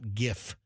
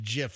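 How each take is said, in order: First: The word starts with a hard G sound. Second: The word starts with a soft J sound. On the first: The speaker calls it wrong. "not GIF" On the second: The speaker calls it right. "it is pronounced GIF ... like the peanut butter"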